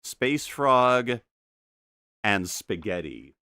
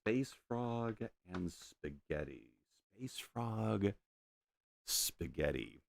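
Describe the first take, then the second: First: Said in the usual way. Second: Quiet, slow repeat to himself; half-voiced musing repeat; soft murmur. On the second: Real, not acted. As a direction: murmur it under the breath. Repeats the phrase softly.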